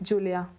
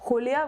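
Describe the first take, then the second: First: The name is said with a Catalan pronunciation. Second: The name is said with a Spanish pronunciation. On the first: The speaker calls it right. "My name is Catalan, it's Julia" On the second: The speaker calls it wrong. "in Spanish, my name is Julia, which I really hate"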